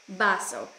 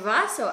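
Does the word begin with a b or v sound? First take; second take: b; v. First: The word begins with a b sound. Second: The word begins with a v sound. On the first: This is the Filipino form. "а по-филиппински Б" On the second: This is the Spanish form. "по-испански, когда вы используете В"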